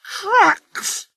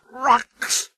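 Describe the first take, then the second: First: Very high outraged shriek. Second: High scornful snort; indignant snort. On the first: Sir Handel outraged at the quarry trucks. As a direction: shriek the word in horror. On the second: Sir Handel snorting at quarry trucks. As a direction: spit it out in disgust. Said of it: "snorted Sir Handel". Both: A narrator's reading.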